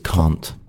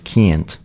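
First: It is said with a British accent. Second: It is said with an American accent. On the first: "But British is can't" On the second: "American pronunciation is can't"

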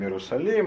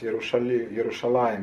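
First: The middle consonant is an 's' sound. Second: The middle consonant is an 'sh' sound. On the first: This is the form adapted through Greek. "переходит в «с»" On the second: This is the original Hebrew form. "звук «ша»"

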